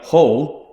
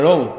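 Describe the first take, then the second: First: The word starts with a clear H sound. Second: The word starts without an H sound. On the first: Locals would never say it this way. The speaker calls it wrong. "It's not Enigma Hull. That'd be unheard of" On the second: This is how locals say it. The speaker calls it right. "It's very rare we pronounce the H in anything"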